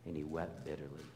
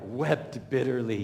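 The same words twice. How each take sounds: First: Soft, low, near-whispered; almost breathe the words wept bitterly; quiet grieving read; hushed reading. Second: A lightly voiced mock of Pastor Doug's dramatic read; mild mock of the pastor's emotional reading; imitating Pastor Doug. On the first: Shown as a demonstration. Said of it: "and then Pastor Doug ... wept bitterly". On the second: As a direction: ham up the pastor's weeping line, louder. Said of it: "Pastor Doug, you know ... writing it out".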